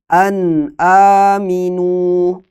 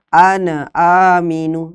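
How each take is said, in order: First: The n is said clearly without nasal hold. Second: The n bounces with an added vowel after it. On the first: The speaker calls it right. "Jadi harus jelas nun sukunnya" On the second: The speaker calls it wrong. "Atau dipantulkan"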